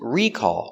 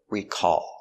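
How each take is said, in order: First: The stress is on the first syllable. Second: The stress is on the second syllable. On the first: It is a noun meaning a product callback. "The noun is recall with the stress on the first syllable" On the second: It is a verb meaning to remember. "Stress on the second syllable"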